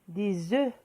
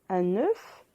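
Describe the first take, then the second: First: The final F sound is silent. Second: The final F sound is pronounced. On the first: There are several eggs. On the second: There is one egg.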